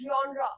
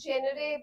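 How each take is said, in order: First: The word begins with a 'jon' sound. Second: The word begins with a 'jen' sound. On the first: The speaker calls it right. "Basically this word is जॉनरा" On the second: The speaker calls it wrong. "बहुत से बच्चे इसे जेनरे pronounce करते हैं"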